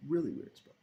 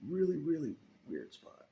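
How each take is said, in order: First: Really high and loud; loud, emphatic restatement; stress on really. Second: Really punched high and loud; loud repeated emphasis; stress on really. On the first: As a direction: punch Really. Repeats emphatically. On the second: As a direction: hit Really hard. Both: Real, not acted.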